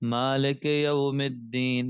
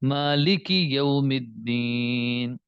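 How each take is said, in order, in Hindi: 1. कसरा स्वर 'e' जैसा सुनाई देता है। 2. कसरा स्वर साफ़ 'ee' जैसा सुनाई देता है। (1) "ये नहीं पढ़ना, ये गलती है" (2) "यानी जेर में आई की आवाज आएगी"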